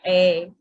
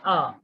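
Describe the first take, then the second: First: The vowel is full and clearly pronounced. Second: The vowel is short and weak. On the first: The speaker calls it wrong. "we don't say a" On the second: The speaker calls it right. "in natural speech, we say a, like a cat"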